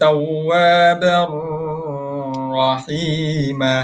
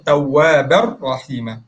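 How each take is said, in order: First: The linked r sound is drawn out long. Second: The linked r sound is kept short. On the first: The speaker calls it wrong. "ada yang baca tawwabar rahima. Salah" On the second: The speaker calls it right. "Jangan baca panjang"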